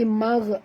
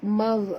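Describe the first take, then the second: No difference in how they are said.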